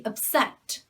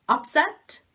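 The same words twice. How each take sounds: First: Up-SET, weak first vowel; second-syllable stress. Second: UP-set, louder with a full first vowel; first-syllable stress. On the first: Teacher modelling upset as a verb, second-syllable stress. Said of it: "so the stress on the second syllable". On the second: Teacher modelling upset as a noun, first-syllable stress. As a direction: punch UP in upset, pitch rising. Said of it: "Upset is a noun". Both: Shown as a demonstration.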